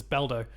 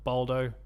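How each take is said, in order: First: Said in the usual way. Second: "Baldo" with a rounder first vowel; alternate pronunciation. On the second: Shown as a demonstration. Host unsure how developers pronounce it, alternate pronunciation. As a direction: say "Baldo" as BOL-doh. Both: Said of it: "I don't know how they pronounce it".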